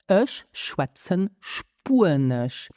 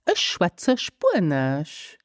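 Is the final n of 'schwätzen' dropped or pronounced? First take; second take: pronounced; dropped. First: The final n of schwätzen is pronounced. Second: The final n of schwätzen is dropped. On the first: The speaker calls it wrong. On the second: The speaker calls it right.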